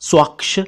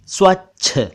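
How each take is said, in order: First: The final consonant is pronounced as ksh. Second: The final consonant is pronounced as chh. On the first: The speaker calls it wrong. "स्वक्ष ... बोलते सुना" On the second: The speaker calls it right. "बोलना चाहिए था ... स्वच्छ"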